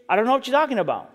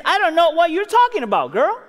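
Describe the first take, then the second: First: Fast, offhand brush-off; casual denial. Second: Put-on a raised, pointed denial to the girl; Peter denying. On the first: Retold or imitated. Peter casually brushing off the servant girl, fast and offhand. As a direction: toss it away quickly, nothing big. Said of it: "notice the way he denies it. No, no, nothing big, just". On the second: Preacher voicing Peter's raised denial to the servant girl. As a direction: brush her off with a lifted voice. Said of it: "And he says".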